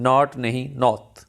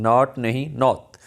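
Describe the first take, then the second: No difference in how they are said.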